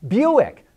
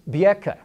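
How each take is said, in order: First: The name is said with English pronunciation. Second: The name is said with Mandarin pronunciation.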